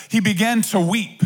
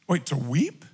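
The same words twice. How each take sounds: First: Said in the usual way. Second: Quiet, puzzled question rising at the end on weep; a low, wondering what, to weep; surprised double take. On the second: Shown as a demonstration. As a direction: stop short as if you can't believe it.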